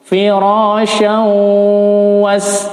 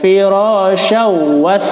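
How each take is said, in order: First: The nasal sound before 'was' is held long. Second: The nasal sound before 'was' is short. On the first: The speaker calls it right. "tapi harus ditahan di sini" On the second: The speaker calls it wrong. "bukan firasyaw was"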